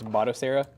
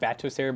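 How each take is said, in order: First: The first syllable sounds like 'bot'. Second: The first syllable sounds like 'bat'. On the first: The speaker calls it right. "but it's" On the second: The speaker calls it wrong. "I was saying"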